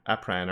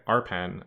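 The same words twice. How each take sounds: First: "Apran" said with the r moved after the p, AP-ran; mispronounced name. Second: "Arpan" said carefully with the r before the p, AR-pan; corrected name. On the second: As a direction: fix the name to "Arpan", r first then p. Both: Shown as a demonstration. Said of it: "I'm saying Ap-, Apran, aren't I?".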